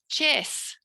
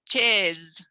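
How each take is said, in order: First: The word ends with a hissing S sound. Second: The word ends with a buzzing Z sound. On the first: The speaker calls it wrong. "Try saying it with an S on the end" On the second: The speaker calls it right. "Now try it with like a Z"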